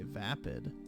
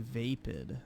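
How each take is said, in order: First: The first vowel sounds like the one in rapid. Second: The first vowel does not sound like rapid's. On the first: "I've heard people say vapid. Like rapid" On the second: "I've never heard someone say vapid"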